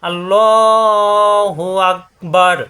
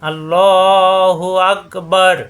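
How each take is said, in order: Both takes have the same delivery.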